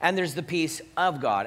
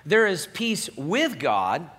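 First: OF leaned on in "the peace of God"; stress on OF. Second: WITH leaned on slowly in "peace with God"; slow down and punch the word WITH; stress on WITH. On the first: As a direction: punch the small word OF. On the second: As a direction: set WITH apart as the key word. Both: Shown as a demonstration. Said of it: "very important to make that distinction".

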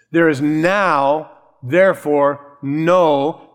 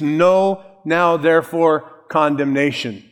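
First: There is now, therefore, no with a pause after "now" and after "therefore"; drawn out slowly, leaning on "no"; slow emphatic reading. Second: "no" put first and stressed, then now, therefore, condemnation; emphasis on no. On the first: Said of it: "the word no is a fa-, emphatic". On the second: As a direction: Greek word order, hitting "no" at the front. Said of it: "So the emphasis is on no". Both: Shown as a demonstration.

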